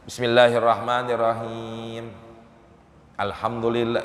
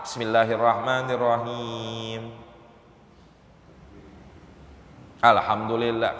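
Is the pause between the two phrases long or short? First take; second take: short; long. First: There is only a short pause between phrases. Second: There is a long pause between phrases. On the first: The recitation stays valid and continues. The speaker calls it right. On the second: The recitation is broken and must restart. The speaker calls it wrong.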